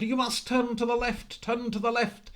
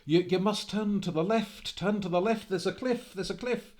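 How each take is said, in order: First: Very high, loud, strained cry; the same warning, now frantic as the horse speeds on; desperate panicked shout. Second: High, loud panicked plea; a man crying out to a rider heading for the cliff; panicked warning. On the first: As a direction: scream the warning in full terror. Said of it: "and again Angus said". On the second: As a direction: shout the warning as fear rises. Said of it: "he began to panic and said". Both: Acted.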